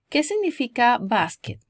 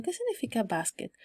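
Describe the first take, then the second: First: Said in the usual way. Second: Softer, musing question; thinking it over. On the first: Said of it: "Means como". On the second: Acted. Learner puzzling over an unknown word, musing. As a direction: wonder it lightly to yourself. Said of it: "Como que ustedes están pensando".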